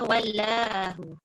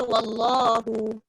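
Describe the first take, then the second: First: The L is said light and thin. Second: The L is said heavy and full. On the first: The speaker calls it wrong. "Ada tak orang baca kalimah Allah yang ada huruf lam tapi bunyinya" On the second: The speaker calls it right. "dia automatik menebalkan lam"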